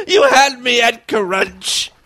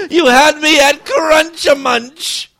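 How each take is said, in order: First: Said in the usual way. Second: Slow, loud, high and crying; hammed-up weepy romance line; mock tearful. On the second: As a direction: overplay the tearful love confession.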